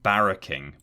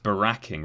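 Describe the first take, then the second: First: It begins like the word barrack. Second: It begins like the name Barack. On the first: The speaker calls it right. "rather than barracking" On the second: The speaker calls it wrong. "I just thought it was pronounced baracking"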